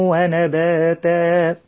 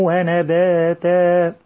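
No difference in how they are said.

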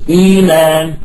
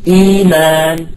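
Both takes have the same delivery.

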